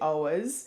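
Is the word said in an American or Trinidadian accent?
Trinidadian. It is said in a Trinidadian accent. "a Trini would say ours"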